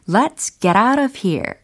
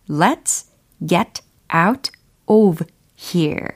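First: The words run together smoothly, linked up. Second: Each word is said carefully and separately.

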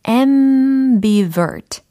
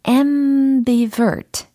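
Both takes have the same delivery.

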